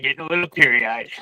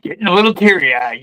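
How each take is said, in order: First: Softer, voice dropping away; choked-up murmur. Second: Said in the usual way. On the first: Real, not acted. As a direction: let it fade as tears come.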